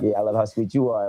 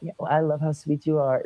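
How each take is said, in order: First: It sounds teasing, with a suggestive edge. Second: It sounds sincere, romantic and googly-eyed.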